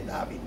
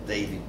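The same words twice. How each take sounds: First: The name is said the Israeli way. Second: The name is said the English way. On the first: This is how it is said where he was born. "allí pronunciarían probablemente David" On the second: This is how it is said where he lives now. "ahora que está en Inglaterra, pues David Deutsch"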